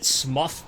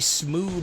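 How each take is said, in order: First: The name rhymes with rough. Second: The name rhymes with through. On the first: "because he's rough" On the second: "because he's through"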